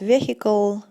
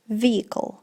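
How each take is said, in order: First: The middle 'h' sound is pronounced. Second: The middle 'h' sound is silent. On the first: The speaker calls it wrong. "говорят vehicle, vehicle, как только не произносят" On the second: The speaker calls it right. "вот эта H, она у нас получается silent"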